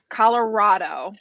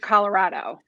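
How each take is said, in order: First: The vowel in 'rado' sounds more like O. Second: The vowel in 'rado' sounds more like A. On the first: "with it more of an O" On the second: "instead of an A"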